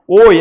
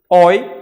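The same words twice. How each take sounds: First: The vowel is pronounced closed. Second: The vowel is pronounced open. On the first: "é fechado" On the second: "é aberto"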